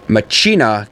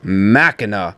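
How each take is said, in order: First: The h in the word is sounded. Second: The h in the word is silent. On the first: The speaker calls it wrong. "So it is not Machina" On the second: The speaker calls it right. "is that H silent the whole entire time? And the answer is yes"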